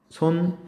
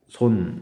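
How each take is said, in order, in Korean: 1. 이 단어는 아주 높은 소리로 말합니다. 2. 이 단어는 아주 낮은 소리로 말합니다. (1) "가장 높은 소리" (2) "가장 낮은 소리로 발음했다"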